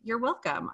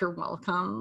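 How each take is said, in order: First: It sounds warm and self-assured. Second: It sounds haughty and superior.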